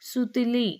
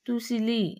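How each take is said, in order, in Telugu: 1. ఈ పదం 's' శబ్దంతో మొదలవుతుంది. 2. ఈ పదం 't' శబ్దంతో మొదలవుతుంది. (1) "వర్ణ మార్పిడి దోషాలకు ఉదాహరణ" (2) "వర్ణ మార్పిడి దోషాలకు ఉదాహరణ"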